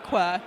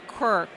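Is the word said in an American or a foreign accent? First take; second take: foreign; American. First: It is said in a foreign accent. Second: It is said in a standard American accent. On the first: The speaker calls it wrong. "not Quirk, like I say it with my e- exotic accent" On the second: The speaker calls it right. "I gotta say it right. It's Quirk"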